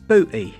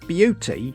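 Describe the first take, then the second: First: No 'y' glide comes before the vowel. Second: A 'y' glide comes before the vowel.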